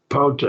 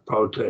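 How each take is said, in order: First: Pote, first syllable high and loud; stress on first syllable. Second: Said in the usual way. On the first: Shown as a demonstration. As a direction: hit the start of Pote hard. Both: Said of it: "notice the accent".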